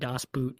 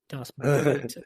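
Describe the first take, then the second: First: The vowel in 'Boot' is short, like English. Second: The vowel in 'Boot' is drawn out longer. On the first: The speaker calls it wrong. "she always corrects me if I say Das Boot" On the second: The speaker calls it right. "there's like a extra O"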